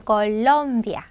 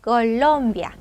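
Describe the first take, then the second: No difference in how they are said.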